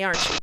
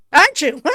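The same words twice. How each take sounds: First: Said in the usual way. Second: Loud, high burst into laughter; gleeful repeat. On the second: Real, not acted. Player amused at predicting the jump, laughing outburst. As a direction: throw it back louder and higher, cracking up.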